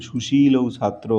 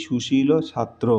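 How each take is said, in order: First: সুশীলৌ ending in a gliding ou; wrong form demo. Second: সুশীল ending in a short plain o; corrected form demo. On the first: Teacher repeats the mistake before correcting it, সুশীলৌ ending in ou. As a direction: say সুশীলৌ with ou as its last sound. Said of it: "এটা ভুল". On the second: Teacher gives students the corrected phrase, সুশীল without the ou. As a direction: say সুশীল without any ou glide at the end. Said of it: "কিন্তু আমাদের কি হবে?". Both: Shown as a demonstration.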